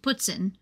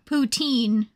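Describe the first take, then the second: First: It is said the non-American way. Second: It is said the American way.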